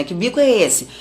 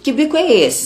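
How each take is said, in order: First: Said in the usual way. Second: Higher, louder teasing call-out of a pout; mother teasing her sulking daughters, higher playful scold; mock scolding mother. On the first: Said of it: "eu lembrei dessas perguntas que eu faço". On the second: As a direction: poke fun at the sulky face. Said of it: "a pergunta que eu faria pras meninas".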